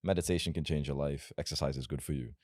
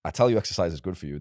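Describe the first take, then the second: First: Softer, mild and unassuming; nice, boring advice. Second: Louder and fast, no hedging; forceful conviction. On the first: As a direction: say it meekly, like a safe tip. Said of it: "If I tell you nice things like". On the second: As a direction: push it hard like an order. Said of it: "it's boring". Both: Shown as a demonstration.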